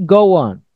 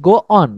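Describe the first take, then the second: First: The words are joined by a w-like glide. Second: The two words are said separately, without a glide. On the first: The speaker calls it right. "Tapi go on. ... seperti ada W" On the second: The speaker calls it wrong. "Bukan go on"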